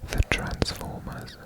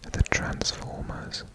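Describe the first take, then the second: No difference in how they are said.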